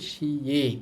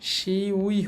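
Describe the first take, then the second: First: The ending is pronounced as 'e'. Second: The ending is pronounced as 'ui'. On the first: The speaker calls it right. "কিন্তু হবে শিয়ে" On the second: The speaker calls it wrong. "শিউই হবে না"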